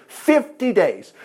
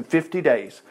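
First: "Fifty days" drawn out very slowly; emphatic repeat of "Fifty days". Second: Said in the usual way. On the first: Real, not acted. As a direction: stretch both words of "Fifty days" for weight. Preacher repeats a figure for emphasis.

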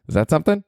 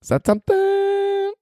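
First: Said in the usual way. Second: Squeaky high voice. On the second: Pretend. Squeaky repeated question.

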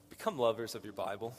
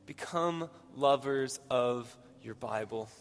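First: Quick, matter-of-fact first statement; brisk statement. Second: Slow and weighty, spacing out the words; slow, deliberate repeat. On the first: Preacher giving the congregation his first advice, brisk. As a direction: say it quickly in one run. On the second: Preacher repeating his first advice to the congregation, slow and deliberate. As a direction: draw out BECOME LOVERS OF, word by word. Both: Real, not acted.

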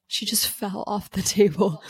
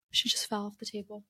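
First: Said in the usual way. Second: Hushed aside about the kitten; soft aside. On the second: Real, not acted. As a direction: drop the voice, speaking off-mic.

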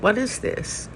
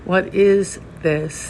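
First: A quick, soft, rising question of wonder; asked in sudden amazement; hushed, wondering query; startled question. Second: Very slow, weighted question, each word held; slow, contemplative inquiry; slow koan. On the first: Retold or imitated. Startled by the koan. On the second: Shown as a demonstration. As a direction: pose it as a koan, unhurried. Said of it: "primary and beautiful Zen koan".

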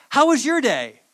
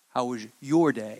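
First: Said in the usual way. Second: Your pointedly stressed, lower and softer. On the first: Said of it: "normally when my mom would come home, she would say". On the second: Retold or imitated. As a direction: lean hard on your, suspicious mom. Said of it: "when you enunciate that "your," you know she means something".

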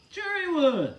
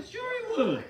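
First: Said in the usual way. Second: Emphatic. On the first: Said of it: "repeated, less high". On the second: Real, not acted. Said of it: "repeated with rising emphasis".

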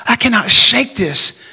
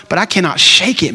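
First: Desperate repeat of "I cannot shake this", slow and heavier; pressed harder. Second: Said in the usual way. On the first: Retold or imitated. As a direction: push "I cannot shake this" out slowly with more weight. Friend confessing struggle, repeated harder.

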